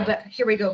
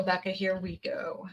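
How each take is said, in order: First: Said in the usual way. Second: Whisper. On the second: Real, not acted. Reader whispers the name to herself.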